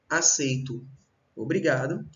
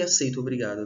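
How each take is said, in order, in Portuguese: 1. Há uma pausa entre as duas palavras. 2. As duas palavras são ditas juntas, sem pausa. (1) "O uso da vírgula na primeira oração" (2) "a ausência"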